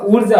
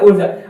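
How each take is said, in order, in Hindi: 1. पहला स्वर लंबा है। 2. पहला स्वर छोटा है। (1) "एक से दुगुनी टाइम लगेगा" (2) "कम टाइम लगता है"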